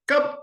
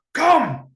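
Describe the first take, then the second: First: High, clipped order; commanding. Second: High, loud, hard come; harsh shout. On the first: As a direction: make come sound like do it. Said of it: "almost like a, "Do it". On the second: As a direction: yell it so it is not inviting. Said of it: "is that inviting". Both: Shown as a demonstration.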